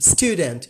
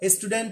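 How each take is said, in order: First: It is said the careful English way. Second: It is said the common local way. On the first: The speaker calls it right. "rather we have to pronounce stu stu student" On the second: The speaker calls it wrong. "আমরা সাধারণত বলে থাকি স্টুডেন্ট। ... এটি wrong pronunciation"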